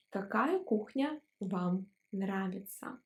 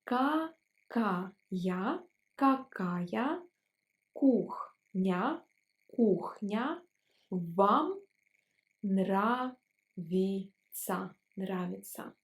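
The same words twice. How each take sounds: First: Said in the usual way. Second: Each word slowly, twice over; slow syllable drill. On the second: Shown as a demonstration. Teacher slowing the polite question for students. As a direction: spell it out slowly for learners. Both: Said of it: "Let's pronounce it slower".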